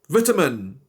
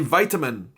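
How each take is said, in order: First: It is said with a British pronunciation. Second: It is said with an American pronunciation.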